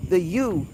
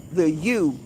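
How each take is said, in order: Both takes have the same delivery.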